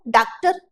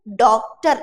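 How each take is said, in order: First: डॉक्टर with an unrounded 'aa', 'DAAK-tar'; wrong long-aa vowel. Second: डॉक्टर with a rounded open 'aw', 'DAWK-tar'; correct English vowel. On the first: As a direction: say डॉक्टर as if spelt with aa. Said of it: "ये तो गलत हो गया". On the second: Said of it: "actual में उच्चारण कैसा है इसका इंग्लिश में". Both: Shown as a demonstration.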